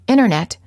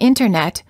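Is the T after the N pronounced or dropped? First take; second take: dropped; pronounced. First: The T after the N is dropped, like "innernet". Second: The T after the N is clearly pronounced. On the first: "you will frequently hear Americans say internet. This is fairly standard speech" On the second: "Instead of saying internet"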